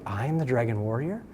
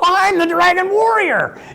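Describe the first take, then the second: First: It sounds unsure and astonished, like a question. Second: It sounds eager and enthusiastic, full of excitement.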